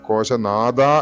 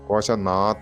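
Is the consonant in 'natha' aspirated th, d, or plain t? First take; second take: d; plain t. First: The last syllable is said with a d sound. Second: The last syllable is said with a plain t. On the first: "അതല്ലാതെ കോശനാഥ എന്ന് ഉച്ചരിച്ചു കഴിഞ്ഞാൽ അർത്ഥം പൂർണ്ണമായി മാറി" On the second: "തകാരമായി ഉച്ചരിക്കരുത്"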